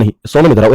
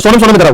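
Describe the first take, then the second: First: Said in the usual way. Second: Mock call with the name repeated. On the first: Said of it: "ऐसे कह देते हैं हम". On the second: Shown as a demonstration. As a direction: call Sonam twice across the room. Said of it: "कभी ऐसा होता है?".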